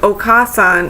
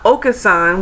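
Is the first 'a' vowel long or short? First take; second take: long; short. First: The first 'a' vowel is long. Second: The first 'a' vowel is short. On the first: It means mother. The speaker calls it right. "Okasan has double A" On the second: It means Mister Oka. The speaker calls it wrong. "it's not Okasan, which is like Mister Oka"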